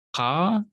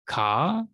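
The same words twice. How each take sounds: First: "Ka" with a guttural pop at the back of the throat. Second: Said in the usual way. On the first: Shown as a demonstration. Teacher demonstrates the Semitic Q to students, guttural "Ka". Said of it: "kind of a pop in the back of the throat". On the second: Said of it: "common to Semitic languages, but we don't".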